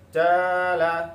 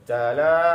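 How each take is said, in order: First: The first vowel is held long. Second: The second vowel is held long. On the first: "yang ketiga jimnya yang panjang" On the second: "yang kedua lamnya yang panjang"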